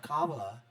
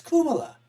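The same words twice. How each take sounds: First: Kamala with an open ah in the first syllable; rejected pronunciation. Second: Kumala with a short oo in the first syllable; Hindi pronunciation. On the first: Host showing how it is not said, KAH-ma-la pronunciation of Kamala. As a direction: say Kamala low, starting KAH. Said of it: "It's not Kamala". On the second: Host correcting the name for viewers, Hindi KOO-ma-la pronunciation of Kumala. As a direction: say Kumala high, starting KOO. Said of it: "Kumala is how you pronounce it". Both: Shown as a demonstration.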